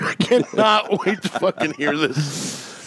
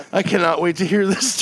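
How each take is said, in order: First: Slow, laughing through the words. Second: Said in the usual way. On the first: Real, not acted. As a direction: crack up mid-sentence. Same line, laughing through it.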